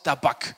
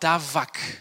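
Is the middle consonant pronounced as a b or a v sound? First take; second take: b; v. First: The middle consonant is a hard b sound. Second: The middle consonant is a soft v sound.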